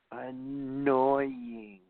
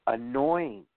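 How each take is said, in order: First: Annoying stretched long and falling; annoying, slow and fed up; drawn-out annoying. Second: Said in the usual way. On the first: Shown as a demonstration. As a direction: drag out annoying in disgust.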